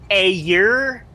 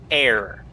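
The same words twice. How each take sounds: First: The r is split off like a second syllable. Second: The r joins the vowel in one syllable.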